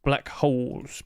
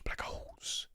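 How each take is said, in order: First: Said in the usual way. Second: Hushed whispered echo. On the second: Real, not acted. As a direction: drop right down to a whisper. Whispered echo of his own words.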